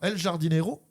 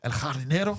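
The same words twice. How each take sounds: First: The title is said with a French-style pronunciation. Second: The title is said with a Spanish-style pronunciation. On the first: The speaker calls it wrong. "je ne prononce très mal" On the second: The speaker calls it right. "puisque sinon ce serait"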